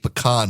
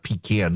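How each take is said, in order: First: The first syllable does not sound like pee. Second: The first syllable sounds like pee. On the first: The speaker calls it right. "I do say pecan" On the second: The speaker calls it wrong. "the latter is what you pee in"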